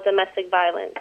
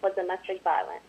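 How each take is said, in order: First: More projected read-aloud; speaking up. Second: Soft, dropping read-aloud; quietly read, barely projected; too quiet. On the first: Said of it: "speak up a little bou". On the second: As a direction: let the volume fall away as you read. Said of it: "speak up a little louder". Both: Real, not acted.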